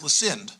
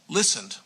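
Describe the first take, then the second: First: The stress falls on an unexpected syllable. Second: The stress falls on the usual syllable. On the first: "putting all the accents on the wrong syllables" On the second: "a verb like um, um, listened"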